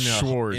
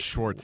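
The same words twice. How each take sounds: First: The name ends without a t sound. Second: The name ends with a t sound. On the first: The speaker calls it right. "There's no T" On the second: The speaker calls it wrong. "not Schwartz"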